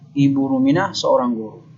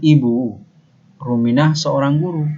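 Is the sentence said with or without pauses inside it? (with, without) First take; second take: without; with. First: The sentence is said without any internal pause. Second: The sentence is said with pauses between its parts. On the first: "tidak ada jeda" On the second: "beda maknanya"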